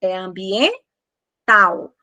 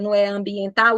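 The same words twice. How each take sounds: First: Ambiental slow, with AU in one breath and L as U; the correct ambiental, drawn out slowly; teacher modelling the right ambiental; right take. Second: Ambiental with a clear final L, syllables split; the incorrect ambiental, L pronounced; the way not to say ambiental; wrong take. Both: Shown as a demonstration. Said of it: "Pronuncia a palavra".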